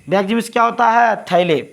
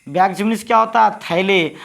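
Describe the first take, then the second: The two takes are said the same way.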